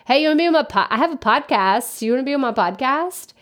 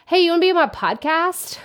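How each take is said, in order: First: Higher, offhand careless ask; mock lazy pitch. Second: Higher, breezy, careless ask; mock lazy pitch. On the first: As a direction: parody a lazy cold message. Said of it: "That's literally how it's like". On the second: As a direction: toss off the lazy cold pitch. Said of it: "that just makes me laugh saying it like that".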